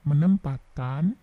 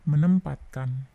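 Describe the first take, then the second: No difference in how they are said.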